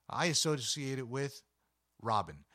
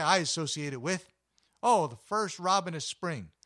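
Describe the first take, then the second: First: Said in the usual way. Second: Louder, higher and eager, building to the first robin of spring; excited. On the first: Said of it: "people are gonna say". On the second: Retold or imitated. Passerby imagined by the narrator, louder eager gushing. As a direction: gush like a fan of spring. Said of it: "And people say".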